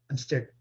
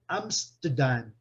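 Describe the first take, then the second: First: An r-colored vowel is heard in the middle. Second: No r sound is heard in the middle. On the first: "O inglês americano tem um Rzinho aqui" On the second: "e o britânico"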